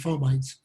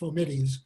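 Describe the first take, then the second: First: It is said in the everyday medical way. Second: It is said in the Latin, dictionary way. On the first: This is how doctors say it. "doctors are taught to pronounce it fomites" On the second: This is the dictionary pronunciation. "for the people who studied Latin in college, the word is actually should be pronounced fomites"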